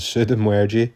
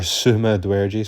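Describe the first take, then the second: First: The name begins with the sounds 'Suda'. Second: The name begins with the sounds 'Suma'. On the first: The speaker calls it wrong. "Not Sudu" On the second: The speaker calls it right. "Or Suma Dwerji, sorry"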